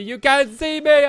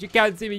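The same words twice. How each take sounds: First: Loud, slow wrestler catchphrase; John Cena taunt. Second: Said in the usual way. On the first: Pretend. Gamer taunting mobs, loud slow catchphrase.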